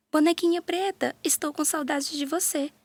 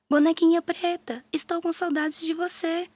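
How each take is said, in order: First: Calling out. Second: Higher, louder call to the doll. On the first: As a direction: call across the house for her doll. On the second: Mariazinha searching the house, calling louder for her doll. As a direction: shout even harder for her lost doll. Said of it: "grita mais alto". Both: A narrator's reading.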